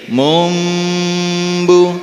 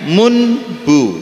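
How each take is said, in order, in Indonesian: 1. Bunyi m ada tepat sebelum b. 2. Bunyi n ada tepat sebelum b. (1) "dibacanya menjadi mumbu" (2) "aslinya munbu"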